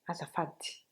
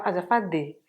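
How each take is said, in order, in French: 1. Le mot se termine par un i soufflé. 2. Le mot se termine par un e. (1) "ça se prononce comme un I, mais un peu expiré" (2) "c'est pas azafadé"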